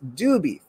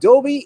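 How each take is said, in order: First: The first vowel sounds like 'oo'. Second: The first vowel sounds like 'oh'. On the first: The speaker calls it right. "it's Doobie" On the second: The speaker calls it wrong. "it's not Dobie"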